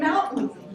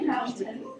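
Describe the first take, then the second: First: The middle consonant is a glottal stop. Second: The middle consonant is a full t sound. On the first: "And mountain" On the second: "You don't say mountain"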